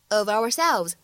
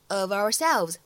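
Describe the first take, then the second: Both takes have the same delivery.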